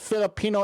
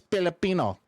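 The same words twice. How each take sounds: First: The word begins with an F sound. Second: The word begins with a P sound. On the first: "instead of saying Filipino" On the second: "We pronounce our F's with P's"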